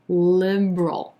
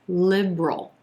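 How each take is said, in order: First: The word is said with two syllables. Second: The word is said with two syllables.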